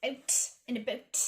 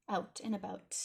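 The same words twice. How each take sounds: First: "out and about" with raised, tight Canadian vowels; mock Canadian accent. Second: Said in the usual way. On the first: Shown as a demonstration. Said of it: "make fun of my own Canadian". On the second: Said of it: "I say out and about, not about".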